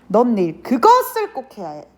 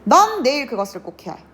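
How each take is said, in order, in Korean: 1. 강세는 '그것을'이라는 단어에 있어요. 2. 강세는 '넌'이라는 단어에 있어요. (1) "꼭 그것을 해야 한다는 의미를 강조하는 거겠죠" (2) "내가 갑자기 여기에 강세를 줘요"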